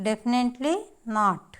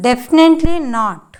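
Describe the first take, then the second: First: Definitely rising, pause, then not dropping; word by word. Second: DEFINITELY high and loud, running straight into not; emphatic whole phrase. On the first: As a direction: split definitely from not with a short break. Teacher repeats phrase word by word. (definitely తర్వాత ఆగి not అనడం) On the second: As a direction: punch Definitely hard, falling on not. Teacher models phrase whole, emphatically. (Definitely పదాన్ని గట్టిగా నొక్కి చెప్పడం) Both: Shown as a demonstration.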